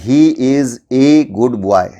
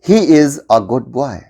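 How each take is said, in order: First: The article is a full 'ay' sound. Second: The article is a weak 'uh' sound. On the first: The speaker calls it wrong. "इसको हम ए बोलते हैं। हमें ऐसा नहीं बोलना है।" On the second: The speaker calls it right. "हमें इसको ऐसे बोलना है।"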